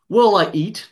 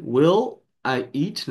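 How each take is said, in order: First: Will I eat run together, the L flowing into I; linked smoothly. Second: "Will I eat" stretched out very slowly, word by word; slowed down. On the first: Teacher showing students linked consonants, fluid. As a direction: join "Will I eat" into one fluid sound, a bit higher and louder. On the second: Teacher slowing down for students, drawn out. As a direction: draw out "Will I eat" slowly so each sound is heard. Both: Shown as a demonstration. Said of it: "pra juntar foneticamente".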